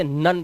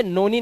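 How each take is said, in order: First: "नन" with a short uh vowel; correct pronunciation. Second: "नोनी" as two syllables, no-nee; wrong pronunciation. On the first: Teacher models exception "नन", correct pronunciation. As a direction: say none as "नन", like nun. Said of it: "इसे नन पढ़ते हैं". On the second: Teacher shows the misreading "नोनी", wrong pronunciation. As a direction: misread none as "नोनी" with a long O. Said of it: "नोनी नहीं पढ़ते". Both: Shown as a demonstration.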